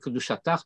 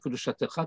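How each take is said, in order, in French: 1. Le mot se termine par une syllabe 'ach' fermée. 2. Le mot se termine par une syllabe ouverte 'cha'. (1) "C'est euh, Kedushatar, Toratar" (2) "et non pas Kedushatecha"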